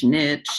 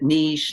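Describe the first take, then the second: First: "niche" said the English way, like nitch; "niche" with a short i and a ch; niche pronunciation. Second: "niche" said the French way, like neesh; niche pronunciation. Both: Shown as a demonstration. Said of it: "don't really know how to pronounce it".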